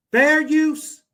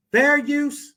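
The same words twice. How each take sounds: The two takes are said the same way.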